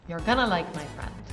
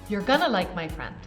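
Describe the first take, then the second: No difference in how they are said.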